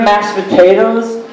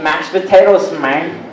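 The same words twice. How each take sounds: First: Said in the usual way. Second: Hammed-up Mexican-accented punchline. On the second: Comic describing a Mexican Thanksgiving dish, mock Mexican accent. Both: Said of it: "I went to a Mexican Thanksgiving".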